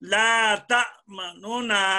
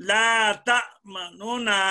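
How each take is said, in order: First: A faint u vowel separates the two n sounds. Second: A faint u vowel separates the two n sounds.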